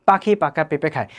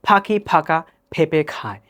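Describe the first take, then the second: First: Unpuffed Bengali p in পাখি পাকা পেঁপে; Bengali accent. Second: Bengali words in an English accent, puffed p in পাখি, ফাঁকা, পেঁপে. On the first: Teacher contrasts languages for learners, Bengali accent. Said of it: "আমরা যদি বাংলায় বলি". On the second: Teacher contrasts languages for learners, English accent. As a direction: pop each p as in English. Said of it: "ইংলিশে বলি তাহলে হবে". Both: Shown as a demonstration.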